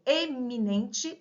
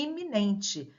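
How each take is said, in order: First: "eminente" starting on a full E, "ê-mi-NEN-te"; distinct E in eminente. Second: "iminente" starting on an I, "i-mi-NEN-te"; initial I in iminente. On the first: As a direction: sound the first vowel of "eminente" as ê, never i. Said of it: "A pronúncia correta é eminente". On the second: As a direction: begin "iminente" with a clear i sound. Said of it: "na pronúncia, acabamos não". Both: Shown as a demonstration.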